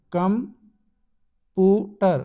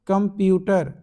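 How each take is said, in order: First: कम, putter broken apart with clear pauses; split into syllables. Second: Said in the usual way. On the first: Shown as a demonstration. Teacher showing dictionary syllable breaks, split into syllables. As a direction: separate कम from putter, beat by beat. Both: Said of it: "syllable जो है आपके show किए".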